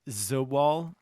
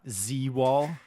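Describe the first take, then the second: First: The first part sounds like 'za'. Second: The first part sounds like the letter Z. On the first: The speaker calls it right. "it's Zawal" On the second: The speaker calls it wrong. "not Z-Wall"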